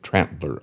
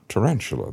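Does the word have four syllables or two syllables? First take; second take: two; four. First: The word is squeezed into two syllables. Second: The word is said fully with four syllables. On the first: This is how the old associates actually said it. "They pronounced it Trantler Ike" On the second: This is the standard pronunciation they did not use. "They didn't pronounce it Tarantula"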